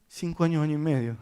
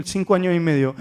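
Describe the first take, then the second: First: Quiet, taken-aback repeat; pensive echo. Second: Said in the usual way. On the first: Retold or imitated. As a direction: softly echo the age to yourself. Therapist echoes the age after gasp.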